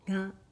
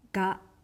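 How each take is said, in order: First: The g sound is soft and nasal. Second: The g sound is hard and clearly released. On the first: It gives a soft, elegant impression. The speaker calls it right. "前に小さいんをつけて鼻にかかったように発音します" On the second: It gives a harsh impression. The speaker calls it wrong. "はっきり発音するときつい印象を受ける"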